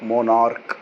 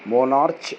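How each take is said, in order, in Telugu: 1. ఈ పదం 'k' శబ్దంతో ముగుస్తుంది. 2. ఈ పదం 'ch' శబ్దంతో ముగుస్తుంది.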